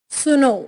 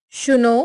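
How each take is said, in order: First: Said in the usual way. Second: SH starting सुनो; Pahari pronunciation. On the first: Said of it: "Hindi उच्चारण". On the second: Shown as a demonstration. Teacher showing Pahari speech, सुनो with sh for s. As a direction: say सुनो as "shuno". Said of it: "पहाड़ी उच्चारण".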